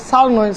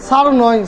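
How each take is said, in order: No difference in how they are said.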